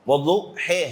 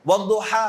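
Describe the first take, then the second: First: The word ends in a fronted 'eh' vowel. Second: The word ends in an open 'ah' vowel. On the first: "बाज लहजे में वद्दुहे है" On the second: "मिसाल के तौर पर वद्दुहा है"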